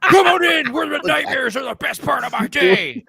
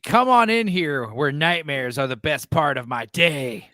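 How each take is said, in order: First: It is read dramatically, imitating the wrestler. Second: It is read flatly, with little acting.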